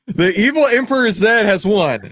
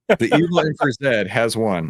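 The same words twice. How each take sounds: First: Big, loud, high winner call; hyped-up announcement. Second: Said in the usual way. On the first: Acted. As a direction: announce it like a game show host. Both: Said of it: "You guys like when I do that".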